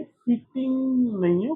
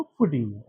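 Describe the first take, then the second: First: फिटिंग higher and slow with a rise; फिटिंग lifted, slowly; फिटिंग rising, as not to say it; wrong version. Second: फिटिंग lower and softer, falling; फिटिंग dropped low at the end; right version. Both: Shown as a demonstration. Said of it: "कि फिटिंग है ये".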